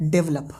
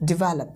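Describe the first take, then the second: First: "develop" as DEV-lup, stress up front; mispronounced develop. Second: "develop" as di-VEL-up, middle syllable stressed; correct develop. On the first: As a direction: squash "develop" into two syllables, DEV-lup. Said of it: "but this is not develop". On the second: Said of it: "इसका pronunciation होता है develop". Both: Shown as a demonstration.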